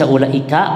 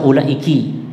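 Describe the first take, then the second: First: The final syllable has the vowel a. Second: The final syllable has the vowel i. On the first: "boleh dibaca ulaika kafnya" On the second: "boleh dibaca ulaiki"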